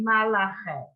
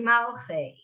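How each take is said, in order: First: The word has three syllables, with an extra vowel. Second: The word has two syllables, without the extra vowel. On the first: The speaker calls it wrong. "We often sing it" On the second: The speaker calls it right. "but it's really"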